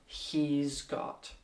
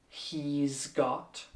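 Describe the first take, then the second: Both takes have the same delivery.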